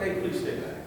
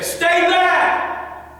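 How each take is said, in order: First: Soft, sweetened polite request; buttered-up politeness. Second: High, loud shouted command; forceful warning. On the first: Coach butters up the warning for the camera, soft and polite. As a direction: gently coax someone to keep away. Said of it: "butter it up a little bit". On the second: Coach models the warning to attacker, loud high shout. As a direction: yell it to drive an attacker off. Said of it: "Sometimes you're gonna say". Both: Shown as a demonstration.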